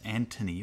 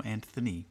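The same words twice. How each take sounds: First: "Anthony" said with a T, as Antony; T pronunciation. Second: "Anthony" with a clear TH; TH pronunciation. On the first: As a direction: say "Anthony" with no TH sound. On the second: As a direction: say "Anthony" with th as in thin. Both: Shown as a demonstration. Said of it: "I don't know if it's".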